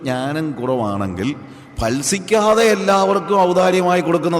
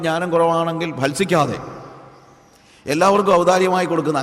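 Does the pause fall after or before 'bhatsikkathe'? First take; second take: before; after. First: The pause falls right before 'bhatsikkathe'. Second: The pause falls right after 'bhatsikkathe'. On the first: The giver gives without rebuking. The speaker calls it right. "എന്താ അവിടെ പറഞ്ഞിരിക്കുന്നത്?" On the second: The one lacking wisdom should not rebuke. The speaker calls it wrong. "നമ്മൾ പലപ്പോഴും വായിക്കുമ്പോൾ"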